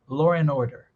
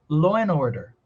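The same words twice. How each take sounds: First: An r sound joins law and and. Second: The d drops and n links into order. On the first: "Dá para colocar até um som de R entre law e end" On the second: "O D de end já sumiu. A gente vai conectar o N"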